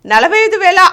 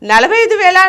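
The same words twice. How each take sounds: The two takes are said the same way.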